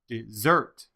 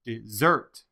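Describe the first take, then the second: First: The stress is on the second syllable. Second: The same.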